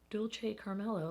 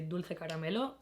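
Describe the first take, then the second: First: It is said with an American accent. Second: It is said with a Spanish accent. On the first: "like an American" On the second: "should I pronounce it like my Spanish self?"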